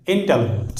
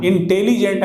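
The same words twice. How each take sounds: First: "इंटेलिजेंट" as in-TEL-jent, silent i; three-syllable intelligent. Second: "इंटेलिजेंट" with full in-te-lee-jent; wrong four-syllable intelligent. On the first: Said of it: "आई जो है silent होकर". ("इंटेलिजेंट" तीन syllable में, इन-टेल-जेंट) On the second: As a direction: sound every vowel of "इंटेलिजेंट", including "lee". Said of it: "इंटेलिजेंट नहीं होता है". ("इंटेलिजेंट" चार syllable में, इन-टे-ली-जेंट) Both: Shown as a demonstration.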